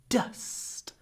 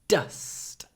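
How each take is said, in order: First: The vowel is short and clipped. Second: The same.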